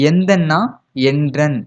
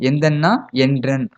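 No difference in how they are said.

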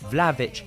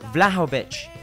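First: The middle 'ho' syllable is short and barely stressed. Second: The middle 'ho' syllable is said fully and clearly. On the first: "đọc rất ngắn thôi" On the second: "đọc rất rõ cái ho nhé"

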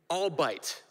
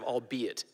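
First: The word is said in two syllables. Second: The word is said in three syllables. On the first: The speaker calls it wrong. "said all bite instead of all be it" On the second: The speaker calls it right. "instead of all be it"

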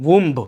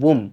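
First: The word ends with an audible b sound. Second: The word ends on the m sound, no b. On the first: The speaker calls it wrong. "বলেছে উম্ব, ব উচ্চারণ" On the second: The speaker calls it right. "শেষে যে ব সাউন্ডটা আছে সেটা কিন্তু উচ্চারণ হবে না, হবে উম"

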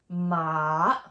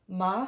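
First: The pitch dips low and then rises. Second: The pitch rises from middle to high. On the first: "It goes down and up" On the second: "the second tone is going up"

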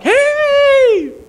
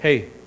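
First: It is said warmly and enthusiastically. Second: It is said coldly and guardedly.

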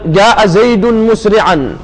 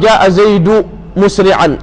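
First: Zayd is said with a final n sound. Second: Zayd is said without a final n sound. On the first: The speaker calls it right. "الاسم المفرد المنصرف ينون في وصل الكلام" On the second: The speaker calls it wrong. "فلا يقول قائل"

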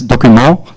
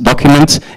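First: The word is pronounced the French way. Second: The word is pronounced the English way. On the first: "In French, it's written the same, but it's document" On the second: "in English it's pronounced document"

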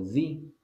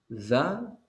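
First: The vowel is an 'ee' sound. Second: The vowel is a short 'uh' sound. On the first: The next word begins with a vowel. "Y usted va a pronunciar di cuando la palabra que le sigue comienza con una vocal" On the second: The next word begins with a consonant. "Usted lo va a pronunciar da cuando la palabra que le sigue comienza con una consonante"

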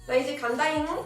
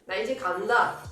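First: It is said cutely, with an added final ng. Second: It is said plainly, with no cute ending. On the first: The speaker is leaving now, said in an endearing way. "możemy powiedzieć to w sposób uroczy" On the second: The speaker is simply leaving now. "mogę powiedzieć"

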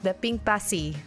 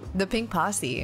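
First: It is said in a Filipino accent. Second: It is said in the speaker's ordinary accent.

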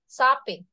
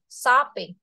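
The two takes are said the same way.

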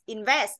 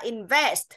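First: The final consonant sounds are dropped. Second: The final consonant sounds are clearly pronounced. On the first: The speaker calls it wrong. "mình chỉ đọc là invest, invest không đúng" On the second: The speaker calls it right. "phải là invest. Tức là phải có âm đuôi trong đấy"

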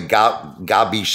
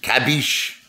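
First: The word begins with a voiced g sound. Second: The word begins with a voiceless k sound. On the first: The speaker calls it wrong. "I just like the way Gabish sounds better" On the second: The speaker calls it right. "I guess Kabish is the right way"

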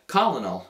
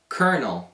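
First: The word is pronounced just as it is spelled. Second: The word is pronounced unlike its spelling. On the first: The speaker calls it wrong. "io l'ho pronunciato come colonel" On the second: The speaker calls it right. "ma invece in inglese noi diciamo colonel"

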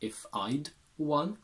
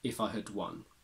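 First: The word had is contracted to a d sound. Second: The word had is said in a reduced weak form. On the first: "becomes if I'd won" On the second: "we can transform had into the weak form had"

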